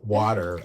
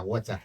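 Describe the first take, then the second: First: Said in the usual way. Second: Water in a Ghanaian accent, wɑtæ, no r. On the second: Shown as a demonstration. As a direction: Ghanaian water, clear t and open final ah. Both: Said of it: "my Ghanaian accent, we say water".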